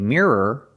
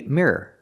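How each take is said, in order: First: The word is said slowly and carefully. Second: The word is said quickly and lightly. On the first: "You can make it more pronounced and say" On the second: "or you can say it fast and say"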